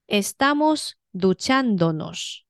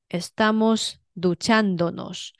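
First: The stress is on the second syllable. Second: The same.

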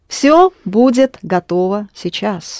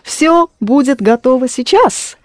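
First: It is said with the flat tune of a statement. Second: It is said with the tune of a question. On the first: It states that everything will be ready now. "That's a statement" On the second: It asks whether everything will be ready now. "Very good intonation. Clearly a question"

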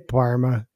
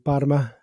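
First: The R in the word is not rolled. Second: The R in the word is rolled. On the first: This is how people from the region say it. "we just say Parma. They don't roll their like, R's" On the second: This is the careful textbook pronunciation. "I've been practicing for years saying Parma"

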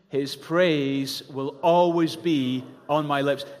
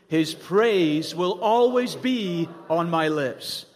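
First: It is said in a plain, neutral way. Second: It is said firmly, with resolve. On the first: "Say that with me" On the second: "say it like you're making a decision about how you're going to live"

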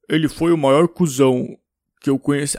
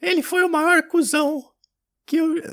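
First: It is said in a deep, low voice. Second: It is said in an old grandmother's voice.

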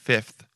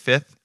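First: The f sound before the th is pronounced. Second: The f sound before the th is dropped. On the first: The speaker calls it right. "It's the right way to say it" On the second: The speaker calls it wrong. "A lot of people say fifth, but there's an F in there"

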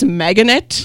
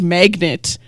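First: The word is said with three syllables. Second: The word is said with two syllables. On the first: The speaker calls it wrong. "he pronounces the word magnet as Meganet" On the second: The speaker calls it right. "the word magnet"

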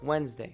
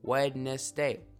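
First: The first d is silent, like Wenz-day. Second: Every letter is sounded out, including the d. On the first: "It's actually pronounced Wednesday" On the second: "Sound it out"

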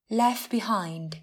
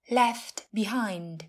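First: The t at the end of left is dropped. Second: The t at the end of left is heard.

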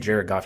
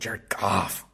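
First: The name is said in a plain, neutral tone. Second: The name is said with a scornful, dismissive tone. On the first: The player is named plainly. "You don't say Jared Goff" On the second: The speaker looks down on the player. "you say his name with disrespect"

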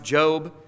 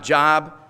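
First: The vowel is long, rhyming with robe. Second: The vowel is short, rhyming with rob. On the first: This is the accepted way to say the name. "pronounced Job" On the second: This reads the name as it is spelled. "and not Job"

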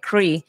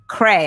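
First: The name ends with an 'ee' vowel. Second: The name ends with an 'ay' vowel. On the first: "I was pronouncing it Cree" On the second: "It's Cray"

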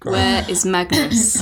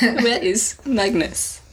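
First: It is said in his normal voice. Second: It is said in a put-on Russian accent.

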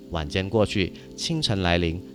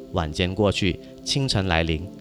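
The two takes are said the same way.

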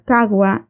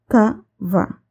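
First: It is said in a simplified Spanish way. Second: It is said in a careful Arabic way. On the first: The speaker calls it wrong. "Los latinos lo decimos de esa forma con el fin de simplificar" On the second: The speaker calls it right. "en árabe se dice kava"

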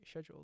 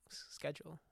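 First: It is said in a British pronunciation. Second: It is said in the speaker's own usual pronunciation. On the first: "But I know Brits, right? They say schedule" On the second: "I'm schedule"

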